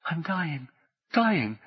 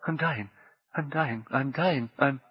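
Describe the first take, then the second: First: Overacted death scene. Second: High soft repeats fading away; overacted death scene. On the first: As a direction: cry out in dying panic. Heart failing, terror. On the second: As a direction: fade out mid-word, dying. Heart failing, fading out. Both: A narrator's reading.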